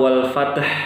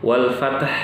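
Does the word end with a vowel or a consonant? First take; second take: consonant; consonant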